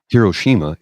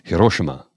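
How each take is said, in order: First: The name is said in an English-sounding way. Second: The name is said in a Japanese-sounding way. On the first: The speaker calls it wrong. "It's not" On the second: The speaker calls it right.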